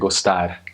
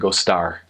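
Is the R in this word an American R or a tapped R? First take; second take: tapped R; American R. First: The R is a single quick tongue tap. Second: The R is a smooth American-style R. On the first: The speaker calls it right. "in Portugal, you say gostar, and it's just like rolling your tongue, but one time" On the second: The speaker calls it wrong. "if I was American, I'd say gostar"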